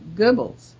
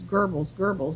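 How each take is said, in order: First: The first vowel is a rounded German umlaut sound. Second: The first vowel sounds English, as in gerbil. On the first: The speaker calls it right. "now I have to use that sound, and it is simply Goebbels" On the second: The speaker calls it wrong. "It's Goebbels, like a gerbil"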